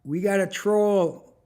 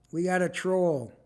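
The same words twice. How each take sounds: First: Louder and slow, each word drawn out; loud slow announcement. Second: Said in the usual way. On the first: Real, not acted. Streamer to viewers, announcing a troll, loud and slow. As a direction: call out the troll to the whole stream.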